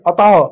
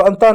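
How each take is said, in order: First: अतः as "a-tah", no n before the t; corrected reading without nasal. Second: अंतः with an n before the t, "antah"; "an-tah" for अंतः; mistaken nasal reading. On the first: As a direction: open first vowel straight into t in अतः. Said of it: "अतः इसको पढ़े". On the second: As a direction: put an n sound into अंतः. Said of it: "इसको अंतः नहीं". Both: Shown as a demonstration.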